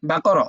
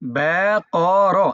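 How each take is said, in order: First: The syllables are said quickly, run together. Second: The syllables are said slowly and separately. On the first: "আর একটু দ্রুত" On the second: "আবার বলি"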